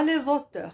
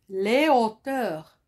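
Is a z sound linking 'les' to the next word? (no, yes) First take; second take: yes; no. First: A z sound links the two words. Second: No z sound links the two words. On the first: It means authors, a different word. The speaker calls it wrong. "Et non pas les auteurs" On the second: It means heights. The speaker calls it right. "Pas de liaison"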